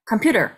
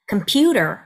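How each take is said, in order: First: All syllables are short and rushed. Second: The middle syllable's vowel is lengthened. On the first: The speaker calls it wrong. "다다닥 이렇게 지나가는 느낌이 들기 때문에" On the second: The speaker calls it right. "강세 음절을 조금 늘려줍니다"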